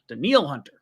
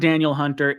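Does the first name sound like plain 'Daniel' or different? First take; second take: different; Daniel. First: The first name sounds different from plain Daniel. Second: The first name sounds like the common name Daniel. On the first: The speaker calls it right. "It's Daniil" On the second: The speaker calls it wrong. "It's not Daniel Hunter"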